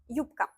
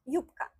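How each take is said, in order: First: The consonant before k is voiceless, like p. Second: The same.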